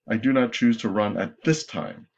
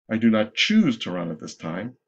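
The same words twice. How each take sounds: First: The stress is on "at this time". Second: The stress is on "choose".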